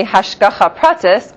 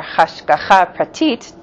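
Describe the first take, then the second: First: "hashgacha pratis" said slowly, PRA-tis ending in S; yeshivish pronunciation. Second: "hashgacha pratit" said slowly, pra-TEET ending in T; Israeli pronunciation. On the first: Teacher introducing the last topic both ways, yeshivish pronunciation. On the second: Teacher introducing the last topic both ways, Israeli pronunciation. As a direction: say "hashgacha pratit" the Israeli way, stressing the final syllable. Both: Shown as a demonstration. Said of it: "depending on how you pronounce it".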